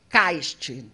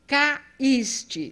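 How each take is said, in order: First: The a and i glide together in one syllable. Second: The a and i are split into separate syllables. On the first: The speaker calls it wrong. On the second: The speaker calls it right.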